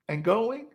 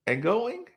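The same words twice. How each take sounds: The two takes are said the same way.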